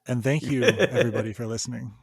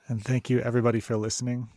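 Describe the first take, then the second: First: It is said with more warmth and feeling. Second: It is said plainly, without much feeling.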